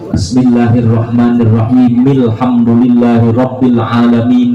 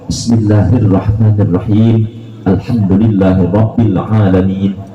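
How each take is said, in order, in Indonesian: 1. Dua ayat disambung tanpa jeda. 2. Jeda napas memisahkan dua ayat. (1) "Ada di wasol juga boleh" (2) "Jadi sunnahnya tanafus, tanafus, satu nafas satu nafas dipisah"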